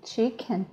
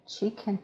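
No difference in how they are said.

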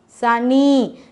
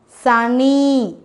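Both takes have the same delivery.

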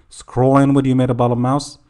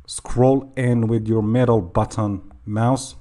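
First: Rushed, words running together; too fast. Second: Slower, more careful repeat; slowed down. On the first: Tutor hurrying through the mouse instruction, too fast. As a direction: rattle it off a bit too quickly. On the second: Tutor repeating the mouse instruction for learners, slowed down. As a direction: take each word slowly and separately. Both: Real, not acted. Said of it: "sorry I said that too fast".

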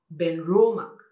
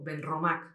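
First: BENROMAC as slow, louder "ben-RO-mak"; middle-syllable stress. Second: BENROMAC as "ben-ro-MAK"; weight on MAC in BENROMAC; wrong final stress. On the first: Shown as a demonstration. Teacher corrects it, slow "ben-RO-mak". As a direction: stretch RO in BENROMAC. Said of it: "es Benromac". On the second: Retold or imitated. Showing the usual error, "ben-ro-MAK". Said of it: "nosotros normalmente diríamos".

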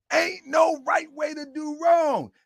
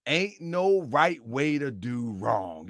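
First: High-pitched, emphatic proclamation; raised preaching voice; preaching cry. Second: Said in the usual way. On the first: Real, not acted. Repeats the saying as preaching.

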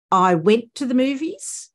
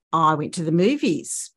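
First: Slow, higher, with 'movies' rising like a question; rising question tune. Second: 'movies' drops down at the end as a statement; falling statement tune. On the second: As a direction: land 'movies' with a fall. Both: Shown as a demonstration. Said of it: "I'm putting emphasis on different words".

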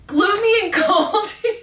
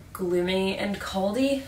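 First: High, loud, cracking up laughing. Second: Said in the usual way. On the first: Real, not acted. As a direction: giggle through the words. Repeats word, cracking up.

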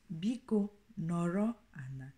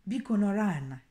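First: Biko nọrọ ana, calmer and level; Igbo phrase, second take. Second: Biko nọrọ ana with a falling, stressed biko; Igbo phrase, first take. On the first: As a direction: repeat Biko nọrọ ana evenly for the learner. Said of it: "in my accent". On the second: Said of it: "Or some accents will say". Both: Shown as a demonstration.

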